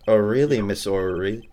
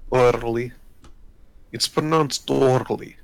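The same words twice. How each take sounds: First: O'Reilly said as plain "O-REE-lee"; mispronounced O'Reilly. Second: O'Reilly in a thick Russian accent, clipped to "OR-lee". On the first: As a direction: say O'Reilly without the accent. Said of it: "I think it's pronounced O'Reilly". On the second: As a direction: roll O'Reilly like a heavy Russian. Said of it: "You need to do thick Russian accent". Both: Shown as a demonstration.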